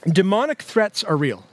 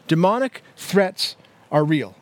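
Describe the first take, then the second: First: Said in the usual way. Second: Slow, deliberate restatement with spaced words; slow repeat. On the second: Real, not acted. Preacher repeating his first teaching point to the congregation, slowly.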